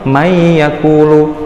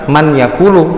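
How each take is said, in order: First: The n merges into a nasal, doubled y. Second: The n is pronounced clearly before the y. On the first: The speaker calls it right. "tapi mayyakulu, langsung dimasukkan ke huruf ya-nya" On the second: The speaker calls it wrong. "bukan man yakulu"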